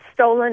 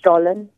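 First: It is said with a local American pronunciation. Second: It is said with a native German pronunciation. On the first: This is how people say it locally. "is how you say it here" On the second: This is how people say it in Germany. "over in Germany, it's pronounced Stollen"

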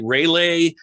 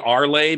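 First: The name begins with a 'ray' sound. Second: The name begins with an 'ar' sound. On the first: Other people say it this way. "Some people say Rayleigh" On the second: The speaker says it this way. "I say Arlay because I don't see Ray in it"

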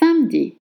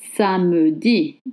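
First: The E after the M is dropped. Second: The E after the M is pronounced. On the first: The speaker calls it right. "No, it's samedi. The E is dropped" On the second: The speaker calls it wrong. "Maybe you think it's Samedi"

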